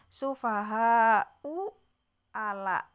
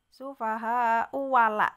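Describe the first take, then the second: First: The second word starts with a glottal stop. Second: The second word starts with a w sound. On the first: "Tadi kan su" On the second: "Kalau diwasol maka menjadi ini bacanya"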